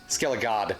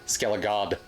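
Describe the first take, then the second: No difference in how they are said.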